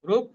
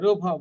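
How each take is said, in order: First: The bh sound ends bare, without vowel. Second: The bh sound carries a full vowel. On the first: The speaker calls it wrong. "কিন্তু নয়" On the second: The speaker calls it right. "ভটা পূর্ণ"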